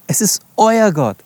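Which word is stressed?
euer. The stress is on the word euer. It is your God, not someone else's. "Euer, nicht ihrer, nicht derer"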